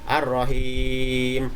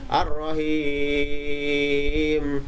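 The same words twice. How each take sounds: First: The long vowel is held a medium time. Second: The long vowel is held a long time. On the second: "dibaca dengan panjang"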